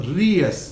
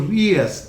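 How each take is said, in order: The two takes are said the same way.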